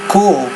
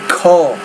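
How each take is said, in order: First: The vowel is long, as in 'cool'. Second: The vowel is short, as in 'cut'. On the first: The speaker calls it wrong. "not cool" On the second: The speaker calls it right. "You say cul"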